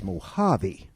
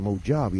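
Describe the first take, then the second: First: The j is said with an H sound. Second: The j is said with a J sound. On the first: The speaker calls it right. "We pronounce it like an H" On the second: The speaker calls it wrong. "it's not the Mojave"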